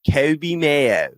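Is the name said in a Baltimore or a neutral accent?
Baltimore. The name is said in a strong Baltimore accent. "His name is so perfect to say with a Baltimore accent"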